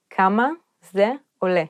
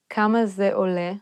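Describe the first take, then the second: First: כמה, זה, עולה with a pause between each; word by word. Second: Said in the usual way. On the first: Shown as a demonstration. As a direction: break כמה זה עולה into separate words for a learner. Phrase then broken down word by word.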